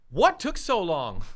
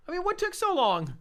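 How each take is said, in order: First: Said in the usual way. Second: "what took so long?" pitched much higher in disbelief; incredulous. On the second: Shown as a demonstration. Host repeating his question, much higher and incredulous. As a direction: throw it up high, exasperated.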